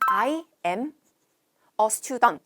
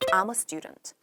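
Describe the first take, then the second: First: I am is said as two full words. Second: I am is shortened into one syllable. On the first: The speaker calls it wrong. "보통 I am a student 이렇게 말하지 않아요" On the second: The speaker calls it right. "축약형"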